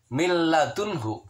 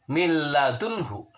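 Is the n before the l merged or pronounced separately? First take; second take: merged; merged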